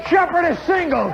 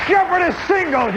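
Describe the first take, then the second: First: Excited call. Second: Higher, louder triumphant repeat; excited call again. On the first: Retelling his hit, higher shouted call. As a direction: shout it like a proud play-by-play. Repeated line. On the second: Retelling his hit, higher triumphant shouted repeat. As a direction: savor it, calling it out once more. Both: Retold or imitated.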